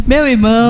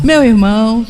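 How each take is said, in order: First: A touch of the pastor's warmth; tender greeting. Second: Lightly imitated fond brother call; a hint of the pastor's tender tone; tender greeting. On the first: Retold or imitated. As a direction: say it like embracing a brother. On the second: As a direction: say it with affection. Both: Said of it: "ele falou várias vezes assim".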